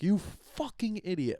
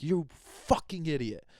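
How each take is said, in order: First: Higher, slow mock insult; hammed-up nasty jab at someone. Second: Slow, sneering mock insult. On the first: Wrong way to swear at someone, mock nasty jab. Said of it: "I think that's wrong". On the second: To someone he's cursing at, a sneering insult. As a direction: spit it out like an imagined insult. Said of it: "I'm not, like, going".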